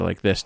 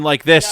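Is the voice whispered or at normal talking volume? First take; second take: whispered; normal. First: It is said in a whisper. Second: It is said at normal talking volume. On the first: "kind of like a whisper"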